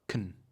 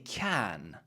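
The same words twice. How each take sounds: First: The vowel is reduced and the word is short. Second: The vowel is full and the word is strong. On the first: The speaker calls it right. "we say can, short, it's shorter, it's gentler, it's quieter" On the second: The speaker calls it wrong. "usually we don't say can"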